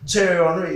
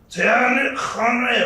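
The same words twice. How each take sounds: First: The name is said in a plain English accent. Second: The name is said in an exaggerated French accent. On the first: "it's never Thierry Henry" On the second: "in the most overly French accent ever"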